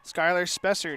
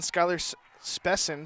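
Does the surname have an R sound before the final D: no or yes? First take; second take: yes; no. First: The surname is said with an R sound. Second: The surname is said without an R sound. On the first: The speaker calls it right. "Spessard with an R" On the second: The speaker calls it wrong. "been saying it wrong"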